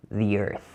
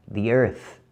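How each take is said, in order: Both takes have the same delivery.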